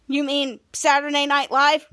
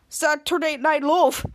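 First: "Live" said as "laiv", rhyming with five; corrected pronunciation. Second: "Live" said as "lov", slowly; mispronounced Live. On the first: Charlotte correcting Schwoz, "Live" said as "laiv". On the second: Schwoz getting the show's name wrong, "Live" as "lov". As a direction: stretch out "Saturday Night Live" with "Live" sounding like "lov". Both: Retold or imitated. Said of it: "you say it better".

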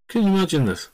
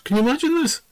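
First: Said in the usual way. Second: Amazed. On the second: Real, not acted.

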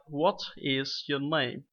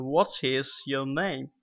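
First: "What is your name?" slow, stress on "What", falling; slow falling question. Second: "What is your name?" stressed on "What", falling; falling question tune. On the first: Teacher slows the example, falling tune. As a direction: say it slowly, falling at the end. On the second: Teacher demos a wh-question, falling tune. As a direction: drop the pitch at "name". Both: Shown as a demonstration. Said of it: "here is some basic example".

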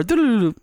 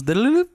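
First: Chirpy alert chime sung higher; rising notification jingle. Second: Sing-song jingle, going down; falling notification jingle. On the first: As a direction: imitate a bright phone ping. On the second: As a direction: imitate a dropping alert chime. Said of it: "every time the Bitcoin goes down". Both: Retold or imitated.

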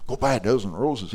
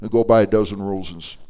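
First: Softer, incredulous repeat of the instruction; puzzled echo. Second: Said in the usual way. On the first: Retold or imitated. Lady questions pastor's odd assignment, puzzled. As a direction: echo it back in quiet disbelief.

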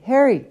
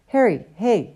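First: Higher, louder shout of the name with a falling end; louder call. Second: A hailing call with a rising end; first call to catch his attention. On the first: Sloper calls Harry again, louder. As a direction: insist on being heard. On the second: Sloper calls after Harry, raising his voice. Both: Acted. Calling to Harry across corridor.

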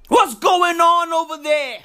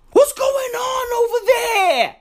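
First: Said in the usual way. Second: High, shouted disbelief; exasperated shriek. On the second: Real, not acted. Ranting about the WHO to viewers, a high shout. Shrieked outburst, then repeated plainer.

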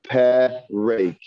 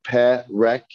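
First: PEREK as peh-rake, ending in long ay; short eh, then long ay in PEREK; wrong second vowel. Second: PEREK with two short ehs; correct short vowels. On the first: Teacher testing if students hear it wrong, PEREK with long ay last. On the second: Teacher testing students with the right one, PEREK with two short ehs. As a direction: say PEREK as peh-rek, both vowels open. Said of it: "Yes. Two segos. Eh and eh". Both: Shown as a demonstration.

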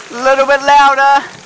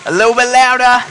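First: Higher and louder call over the noise; even louder. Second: Raised and a bit louder call; building louder. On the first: Calling over the kids' storm noise, louder and higher. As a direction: lift it again over the storm. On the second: Urging the kids to build the storm, getting louder. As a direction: push the class up a notch. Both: Shown as a demonstration. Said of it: "Everyone get a little bit louder".

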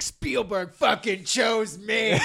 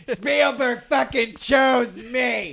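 First: Slow shouted cocky boast; Colin Trevorrow impression. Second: Higher, slow shouted brag; Colin Trevorrow impression. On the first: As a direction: drag out a bragging yell. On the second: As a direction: yell it out, smug and slow. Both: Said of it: "my, uh, Colin Trevorrow impression".

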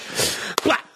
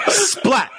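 First: Voiceless, softly puffed "splat"; near-whispered sound effect; imitated splat. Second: Very high, punched "splat"; sharp high-pitched cartoon splat; imitated splat. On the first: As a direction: make a small breath-only impact sound. Imitated impact, first softer take. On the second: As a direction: squeal the impact as a sound effect. Same impact repeated much higher.

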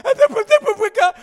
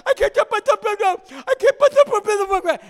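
First: Very high, loud, slow, garbled wail; swollen-tongue wail. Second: Very high, loud, very slow, garbled howl; drawn-out swollen-tongue wail. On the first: Boy with a swollen tongue running on the steps, wailing garbled words. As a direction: cry it through a swollen tongue. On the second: Boy on the steps after the punch, howling slurred words. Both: Retold or imitated. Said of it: "just going".

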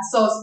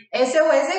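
First: Sos said as one word, rhyming with "dos"; one quick word, sos. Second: S O S spelled out letter by letter, "ese o ese"; each letter said on its own. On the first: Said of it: "Camila lo pronuncia como sos". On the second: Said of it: "cuánto te tardas más diciendo S O S". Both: Shown as a demonstration.

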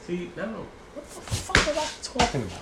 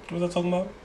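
First: High, exasperated outburst; fed up with losing the thread; frustrated. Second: Said in the usual way. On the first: Real, not acted. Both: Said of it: "That just made me mad".

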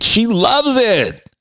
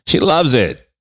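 First: Much higher, slow mocking sing-song; "She loves it." stretched out high and slow, dripping irony; sarcastic. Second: Said in the usual way.

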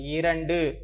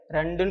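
First: இரண்டு with a full opening "i": i-ran-du; correct formal form. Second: ரெண்டுன்னு in colloquial form, starting straight on "re"; colloquial wrong form. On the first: Teacher modelling the number for children, careful formal pronunciation. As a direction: say இரண்டு in formal Tamil, all three syllables. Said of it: "ரெண்டுன்னு சொல்லக்கூடாது". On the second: Teacher showing children the form to avoid, colloquial pronunciation. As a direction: say ரெண்டுன்னு without the opening "i" sound. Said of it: "சொல்லக்கூடாது". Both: Shown as a demonstration.

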